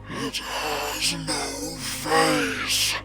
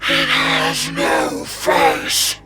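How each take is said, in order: First: It is said louder and threateningly. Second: It is shouted very loudly.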